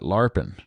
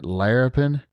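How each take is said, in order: First: The word is said with two syllables. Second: The word is said with three syllables. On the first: "My granny used to call it larpin" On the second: "You're calling it larapin"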